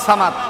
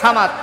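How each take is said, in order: First: Said with a careful Arabic pronunciation. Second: Said with a rural Bengali-style pronunciation. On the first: The speaker calls it right. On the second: The speaker calls it wrong.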